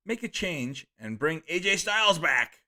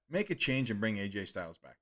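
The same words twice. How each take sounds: First: Enthused reading. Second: Said in the usual way. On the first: Retold or imitated. Streamer gets carried away reading a fan's chat message. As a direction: read it with a little too much gusto. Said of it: "Sorry, I got enthused by that". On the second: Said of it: "That's how they said it".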